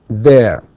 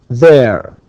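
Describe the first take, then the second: No difference in how they are said.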